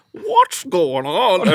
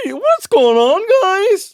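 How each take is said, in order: First: High, slow, drawn-out question; imitating Michael. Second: High, louder cheerful greeting; imitating Michael. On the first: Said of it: "he'd be like". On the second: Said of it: "Michael was saying to me".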